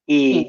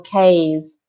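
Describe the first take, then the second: First: The vowel is said like 'ee'. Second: The vowel is said like 'ay'. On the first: The speaker calls it right. "Keep it level, uh, one sound, E, keys" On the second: The speaker calls it wrong. "many students are tempted to pronounce A, uh, for example, K's, but we do not pronounce it like this"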